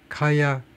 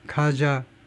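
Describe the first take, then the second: First: The middle consonant is a 'y' sound. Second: The middle consonant is a 'j' sound. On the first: The speaker calls it right. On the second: The speaker calls it wrong.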